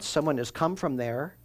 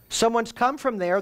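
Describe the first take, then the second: First: Said in the usual way. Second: Someone's come from there lifted higher, stress on come; emphatic repeat. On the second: Shown as a demonstration. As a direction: push the word come up high.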